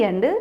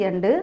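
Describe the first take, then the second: The two takes are said the same way.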